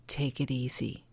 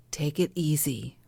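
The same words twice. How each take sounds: First: Whispered take it easy, soft and lower; hushed self-soothing murmur. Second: Said in the usual way. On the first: Shown as a demonstration. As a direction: whisper it to yourself like a calming reminder. Coaching self-care, then whispered.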